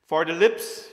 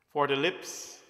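First: "for the lips" called out loud and rising; emphatic. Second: Said in the usual way. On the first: Shown as a demonstration. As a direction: announce "for the lips" with force. Repeats phrase, first with emphasis.

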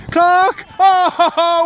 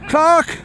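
First: Rising excited shout of the name. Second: Said in the usual way. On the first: Real, not acted. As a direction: call the name out, thrilled. Calling out as he scores.

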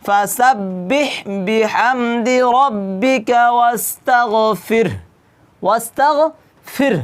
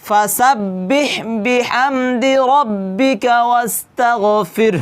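First: Slow chanted verse with the ending sounded; Quran recitation. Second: Slow chant that stops on ওয়াস্তাগফির; Quran recitation with a pause. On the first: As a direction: recite slowly and voice the final sound. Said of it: "হাটা একটু কি করতে হবে? উচ্চারণ করতে হবে". (ধীর তিলাওয়াত, শেষ অক্ষর উচ্চারণ) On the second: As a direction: recite slowly and take a breath at the end. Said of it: "এরকম করে কি করতে হবে? নিঃশ্বাস নিতে হবে". (থেমে শ্বাস নিয়ে তিলাওয়াত) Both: Shown as a demonstration.

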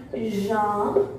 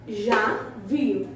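First: "Janvier" broken in two with a pause; "Janvier" in two separated syllables. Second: Said in the usual way. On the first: Shown as a demonstration. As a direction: sound out "Janvier" slowly for learners. Teacher splits the word for learners.

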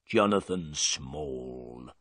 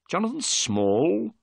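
First: Low, slow prisoner's answer; gruff prisoner. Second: Higher, slow questioning rise; surprised repeat. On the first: Prisoner to Holmes, giving his name slowly and low. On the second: Holmes to the prisoner, repeating his name in surprise. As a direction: echo the name back in surprise. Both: Acted.

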